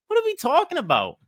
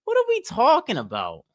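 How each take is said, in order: First: Much higher, fast, incredulous repeat; exasperated disbelief. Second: Said in the usual way. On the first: Real, not acted. Vlogger repeating in disbelief at TikTok crying trend. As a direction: say it again in sheer disbelief.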